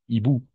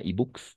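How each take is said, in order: First: The word ends with no consonant sound. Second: A final ks sound is pronounced. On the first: The speaker calls it right. "Parce que le X est muet" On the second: The speaker calls it wrong. "Pas e-books, non"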